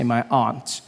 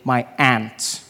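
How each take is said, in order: First: It is said in the speaker's own accent. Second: It is said in the local American-style accent.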